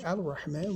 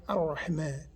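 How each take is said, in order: First: Al-Rahman with the L sounded; "Al-Rahman", L not merged into R; L pronounced in Al-Rahman. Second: Ar-Rahman with a doubled R; "Ar-Rahman", no L, strong double R; L merged into R. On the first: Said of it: "We don't say Al-Rahman". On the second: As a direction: drop the L and hold the R in Ar-Rahman. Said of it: "We say Ar". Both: Shown as a demonstration.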